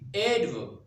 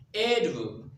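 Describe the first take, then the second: First: The stress is on the first syllable. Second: The same.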